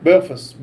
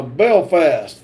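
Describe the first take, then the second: First: Belfast with a reduced "fuss" ending; second syllable of Belfast weakened to "fuss"; corrected pronunciation. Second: Belfast with a full "fast" ending; both syllables of Belfast sounded fully; full-vowel pronunciation. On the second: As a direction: say Belfast with a clear A in the second syllable. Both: Real, not acted.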